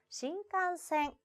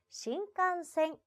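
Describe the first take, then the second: Both takes have the same delivery.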